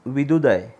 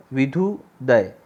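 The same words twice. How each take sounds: First: Said in the usual way. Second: विधुदय said very slowly, with a clear breathy dh in धु; slow careful correction. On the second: Shown as a demonstration. Teacher corrects the word for students, slow and careful. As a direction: spell out विधुदय slowly, leaning on the aspirated धु.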